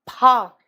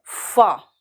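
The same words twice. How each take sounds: First: "फा" loud, with aspirated p; Hindi pha. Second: "फा" with a hissed f; English f. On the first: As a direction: punch out "फा" from closed lips. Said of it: "Hindi वाला". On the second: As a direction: let air stream into "फा". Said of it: "और ये है फा". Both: Shown as a demonstration.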